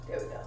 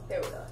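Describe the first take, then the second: No difference in how they are said.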